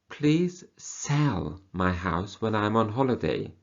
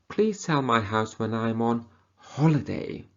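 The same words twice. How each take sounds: First: The stress falls on the word sell. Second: The stress falls on the word on. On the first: They want it sold, not bought. "So they don't want you to buy the house, they want you to sell the house" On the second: It should happen during the holiday, not before or after. "Not before the holiday or after the holiday"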